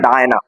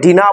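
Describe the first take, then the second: First: The first vowel sounds like 'eye'. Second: The first vowel sounds like 'ee'. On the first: The speaker calls it right. "উচ্চারণটা ডায়না" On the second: The speaker calls it wrong. "অনেকে ডিনা বলে উচ্চারণটা"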